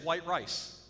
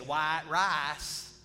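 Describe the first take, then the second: First: It is said in a Michigan accent. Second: It is said in a Louisiana accent.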